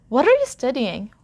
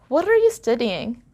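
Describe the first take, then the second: Both takes have the same delivery.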